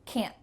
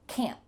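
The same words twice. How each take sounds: First: The word ends abruptly on a stopped T. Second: The word ends abruptly on a stopped T.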